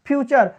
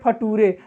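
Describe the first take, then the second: First: The middle consonant is a ch sound. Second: The middle consonant is a plain t sound. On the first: The speaker calls it right. "नटूरे फटूरे नहीं है बाबू" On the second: The speaker calls it wrong. "कभी आप video देखे होंगे नटूरे फटूरे"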